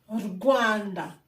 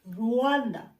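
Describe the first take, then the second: First: A g sound is heard before the w. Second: There is no g sound before the w. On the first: The speaker calls it right. "It's Rwanda. So there's a G sound here" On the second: The speaker calls it wrong. "not Rwanda"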